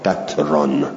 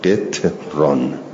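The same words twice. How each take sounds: First: It has vowel a, no second vowel: qatran. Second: It has vowel i, no second vowel: qitran. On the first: "به فتح قاف و اسکان تا" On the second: "به کسر قاف و اسکان تا"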